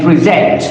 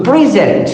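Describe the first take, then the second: First: PreSENT, second syllable strong; stress on second syllable. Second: PREsent, first syllable strong; stress on first syllable. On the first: Lecturer setting verb against noun, stress on preSENT's second syllable. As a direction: say present as the verb, pre-SENT. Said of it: "to the second syllable". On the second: Lecturer setting noun against verb, stress on PREsent's first syllable. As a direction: say present as the noun, PRE-sent. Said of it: "to the first syllable". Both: Shown as a demonstration.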